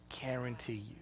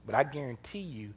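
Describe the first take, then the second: First: A hushed, intimate assurance; whispered promise. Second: Said in the usual way. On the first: Real, not acted. Preacher whispering assurance to the congregation, hushed. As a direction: breathe the words out with no voice.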